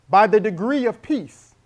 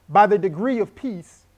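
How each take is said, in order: No difference in how they are said.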